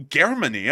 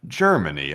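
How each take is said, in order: First: Loud puzzled Germany? with a hard k sound; mock Russian Germany. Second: Germany said low, starting with a J sound, tʃə˞məni; soft-G Germany. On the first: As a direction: echo Germany? like a Russian would, stunned. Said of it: "you actually said it just like a Russian would". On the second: Retold or imitated. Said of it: "why do we say Germany".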